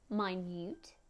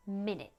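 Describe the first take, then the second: First: "Minute" said my-NYOOT, long and rising at the end; stress on second syllable. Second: "minute" said MIN-it, short and falling; stress on first syllable. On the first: Teacher showing how stress changes meaning, "Minute" stressed on NUTE. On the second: Teacher showing how stress changes meaning, "minute" stressed on MIN. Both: Shown as a demonstration. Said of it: "ou alors le sens".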